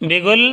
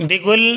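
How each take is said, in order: The two takes are said the same way.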